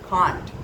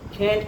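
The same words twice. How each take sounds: First: It is said in a British accent. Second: It is said in an American accent. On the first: "in the British English it is" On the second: "in American English"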